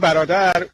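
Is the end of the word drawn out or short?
short. The final syllable is short and plain. This is how Persian speakers say it. "ما میگیم برادر"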